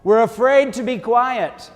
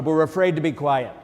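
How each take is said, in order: First: Slow, loud and high, stretching out afraid; emphatic declaration. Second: Said in the usual way. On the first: Acted. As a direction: proclaim it to the whole church. Preacher stresses fear of silence.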